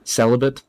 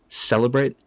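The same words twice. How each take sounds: First: "Celibate" with a reduced final syllable; "Celibate", short last vowel, offered for comparison; pronunciation contrast. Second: "Celebrate" with a full "brate" ending; "Celebrate", clear R and long final vowel; pronunciation contrast. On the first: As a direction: say "Celibate" ending in an unstressed "bit", as a question. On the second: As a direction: say "Celebrate" with a long A in the last syllable, rising. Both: Shown as a demonstration.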